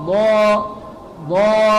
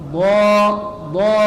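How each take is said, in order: Both takes have the same delivery.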